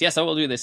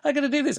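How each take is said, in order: First: It is said in a formal, measured voice. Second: It is said in a high, eager voice.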